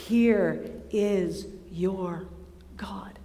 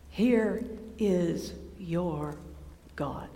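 First: Slow, lower, fading to a whisper; whispered awe. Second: Slow, much softer and lower, reverent; hushed awe. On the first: Preacher repeating the revelation, whispered softly. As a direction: breathe it out in a whisper. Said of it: "repeated, fading to whisper". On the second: Preacher revealing God to listeners, in a slow hush. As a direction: let it fall to a reverent hush. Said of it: "slow hushed proclamation". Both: Acted.

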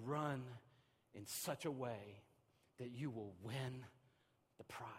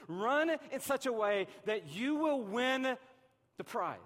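First: Softer and slow, each phrase set apart; "Run in such a way that you will win the prize" spoken softly and slowly with pauses between phrases; quiet quoting. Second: Louder and higher, slow and driving; "Run in such a way that you will win" pushed out loud and slow; urgent call. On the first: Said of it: "He said". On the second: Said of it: "Don't even just do two thousand fourteen". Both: Shown as a demonstration.

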